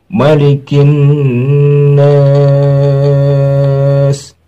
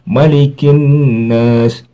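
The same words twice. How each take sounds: First: The vowel in 'nas' is held very long. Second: The vowel in 'nas' is held fairly short. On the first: "lebih baik dibaca dua alif setengah daripada satu alif" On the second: "tapi boleh. Boleh"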